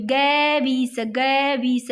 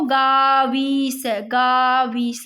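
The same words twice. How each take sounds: First: "गैवीस" with short first vowel, ga-vees; corrected sounding-out. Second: "गावीस" very slow with a long aa, gaa-vees; mistaken sounding-out. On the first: Teacher correcting herself for students, "गैवीस" sounded with short first vowel. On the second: Teacher sounding out a word by mistake, "गावीस" stretched with long aa. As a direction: draw out "गावीस" with an open aa first. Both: Shown as a demonstration. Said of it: "sorry".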